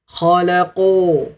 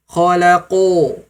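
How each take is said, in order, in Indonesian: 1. Vokalnya diucapkan dengan bibir membulat dan dimonyongkan. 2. Vokalnya diucapkan dengan bibir membulat dan dimonyongkan.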